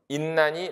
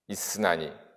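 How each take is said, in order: First: An n sound replaces the s before n. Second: An s sound is kept before the n. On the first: "폐쇄가 돼버리니까 인난이 낱낱이 밋밋하다 하고 비음동화가 일어나 버린다" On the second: "중세고 발음으로 읽으면"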